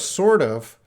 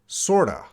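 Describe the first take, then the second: First: The word 'of' is said in full. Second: The 'of' is reduced to a schwa.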